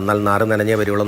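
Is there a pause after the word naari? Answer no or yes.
no. The words run together without a pause. He will come back completely soaked.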